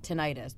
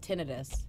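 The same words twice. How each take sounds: First: The ending sounds like 'itis'. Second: The ending does not sound like 'itis'. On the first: The speaker calls it wrong. "not tinnitus, because itis means an inflammation" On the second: The speaker calls it right. "She prefers tinnitus"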